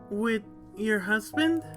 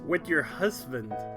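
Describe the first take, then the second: First: It is said in a put-on female character voice. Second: It is said in the speaker's normal voice.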